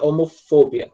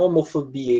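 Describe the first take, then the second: First: The stress falls on the 'pho' syllable. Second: The stress falls as in the Portuguese word. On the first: The speaker calls it right. "a sílaba tônica é lá no O" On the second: The speaker calls it wrong. "Não homofobia, igual em português"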